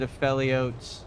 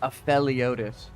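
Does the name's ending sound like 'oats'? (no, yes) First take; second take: yes; no. First: The ending sounds like the word 'oats'. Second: The ending does not sound like 'oats'. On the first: "like uh oats" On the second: "It just sounds cool when you pronounce it like that"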